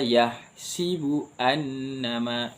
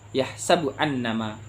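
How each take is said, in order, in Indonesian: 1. Huruf sin diucapkan dengan vokal 'i'. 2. Huruf sin diucapkan dengan vokal 'a'.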